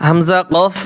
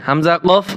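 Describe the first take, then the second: The two takes are said the same way.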